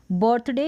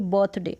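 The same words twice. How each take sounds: First: First "बर्थडे" with an audible r; sounded r. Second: "बर्थडे" as "bothday", without r; silent r. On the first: Teacher offering one valid form, "बर्थडे" with r. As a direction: let the r be heard in "बर्थडे". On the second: Teacher offering the other valid form, "बर्थडे" without r. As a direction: drop the r from "बर्थडे". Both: Shown as a demonstration. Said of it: "दोनों ही correct है".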